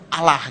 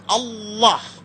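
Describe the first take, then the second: First: It is said lightly, plain Indonesian style. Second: It is said heavily, with an Arabic-influenced sound.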